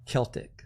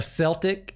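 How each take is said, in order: First: "Celtic" said with a hard K sound, KEL-tik, quietly; "Celtic" as KEL-tik, murmured. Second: "Celtic" said with a soft S sound, SEL-tik. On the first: Shown as a demonstration. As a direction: correct yourself to KEL-tik, softer. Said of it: "My bad". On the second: Real, not acted. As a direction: start "Celtic" on an S, like selling. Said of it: "Celtic or Celtic?".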